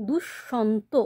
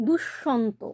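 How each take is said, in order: Both takes have the same delivery.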